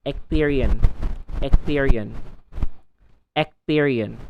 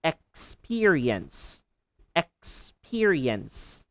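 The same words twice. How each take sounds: First: "Experience" said as "ekperien", missing the s; learner mispronunciation. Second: Slow "Experience" with full ek-spi-ri-ens; careful model of "Experience"; every syllable clear. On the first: Retold or imitated. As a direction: drop the s in "Experience". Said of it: "They say". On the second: Shown as a demonstration. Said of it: "clearly utter every syllable".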